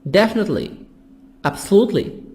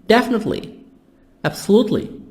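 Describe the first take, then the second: No difference in how they are said.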